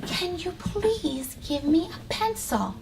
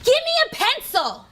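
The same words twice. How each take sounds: First: Slow, soft and polite; polite request. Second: Mock rude demand for a pencil. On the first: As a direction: ask nicely, gently. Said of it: "What could we say instead of". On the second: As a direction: snap it out rudely. Teacher acts out rude demand. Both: Shown as a demonstration.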